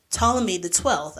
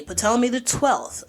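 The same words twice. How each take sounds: First: "Ptolemy" said "TOL-eh-mee" with the P silent; "Ptolemy" starting on the T, "TOL-eh-mee", no P. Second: "Ptolemy" said "puh-TOL-eh-mee" with the P sounded; "Ptolemy" with a spoken P at the start, "puh-TOL-eh-mee". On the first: History podcaster correcting herself to say "Ptolemy" as "TOL-eh-mee", P silent. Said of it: "I mean, sorry". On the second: History podcaster mispronouncing the pharaoh's name, "Ptolemy" with the P sounded. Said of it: "I keep saying Ptolemy because it's a P in front of it". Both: Shown as a demonstration.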